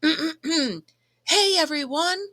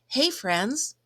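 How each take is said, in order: First: It is said loudly, almost yelled. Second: It is said at a normal, quieter volume.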